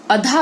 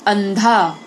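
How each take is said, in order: First: अधा said with no nasal at all, light and easy; without anusvara. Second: अंधा said with a strong nasal n and extra force; anusvara demo. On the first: Teacher contrasts अधा for pupils, no nasal. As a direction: drop the nasal, say अधा plainly. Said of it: "अधा अगर बोलते हो तो उतना बल नहीं लगता". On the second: Teacher shows pupils how अंधा is said, forceful nasal. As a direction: push the ं in अंधा hard. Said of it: "जैसे बोल के देखो". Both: Shown as a demonstration.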